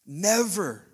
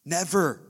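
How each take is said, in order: First: Stronger emphasis. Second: Firm emphasis. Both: Real, not acted. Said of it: "God would never speak anything".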